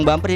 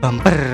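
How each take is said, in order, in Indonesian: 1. Diucapkan dengan logat standar yang biasa. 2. Diucapkan dengan logat Jawa yang kental.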